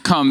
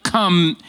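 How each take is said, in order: First: Said in the usual way. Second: Lightly acted parent's command, drawn out a little; a hint of a dad ordering a child over; daddy voice. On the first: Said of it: "that wasn't just come". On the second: Dad telling his kid to come now, light daddy voice. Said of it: "or a daddy voice".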